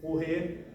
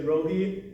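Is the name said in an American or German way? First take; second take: German; American. First: The name is said the German way. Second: The name is said the American way.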